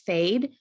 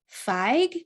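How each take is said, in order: First: It is said with a long a and final d. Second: It is said with a short i and final g. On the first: The speaker calls it wrong. "it looks like it says fade. It's not fade" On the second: The speaker calls it right. "It's pronounced fig"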